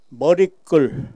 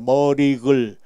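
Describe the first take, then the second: First: The ㄱ of the last syllable is tense. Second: The ㄱ of the last syllable is plain. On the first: The speaker calls it right. "우리말에는 머리글, 인사말 이렇게 발음을 해야 됩니다" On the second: The speaker calls it wrong. "이렇게 해서는 안 되고"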